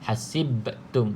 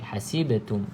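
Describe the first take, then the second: First: The b sound has a strong, heavy bounce. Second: The b sound has a small, light bounce. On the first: The speaker calls it wrong. "tu dah berat" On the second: The speaker calls it right. "Tak perlu berat"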